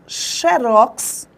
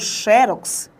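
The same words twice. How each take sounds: First: The stress is on the last syllable. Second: The stress is on the first syllable.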